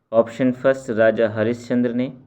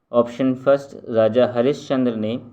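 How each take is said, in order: Both takes have the same delivery.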